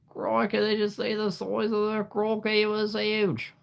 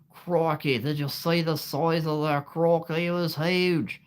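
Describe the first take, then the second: First: Much higher, exaggerated Australian accent; a second, bigger try at the Aussie croc-hunter Australian accent; Steve Irwin Australian accent. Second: Put-on Steve Irwin Australian accent. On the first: Streamer retrying the Crocodile Hunter for chat, in an over-the-top Australian accent. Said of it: "not perfect, but it's as good as you're gonna get". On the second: Streamer imitating the Crocodile Hunter for chat, in an Australian accent. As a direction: ham up the Aussie croc-hunter Australian accent. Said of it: "there's no way I could ever copy him".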